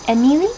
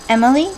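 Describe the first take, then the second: First: It is said with a Spanish accent. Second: It is said with an English accent. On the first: "with a Spanish accent" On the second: "my real first name"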